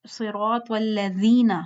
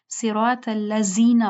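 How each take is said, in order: First: Tongue between teeth on "والذین"; correct dhaal. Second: "الذین" as allazina with buzzing z; dhaal becomes z. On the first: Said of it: "کیا پڑھتے ہیں لیکن". ("والذین" نرم ذال سے، ٹھہر کر) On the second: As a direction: say a plain z in "الذین". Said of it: "زائی کر دیتے ہیں اس کو". ("الذین" زا کی آواز سے) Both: Shown as a demonstration.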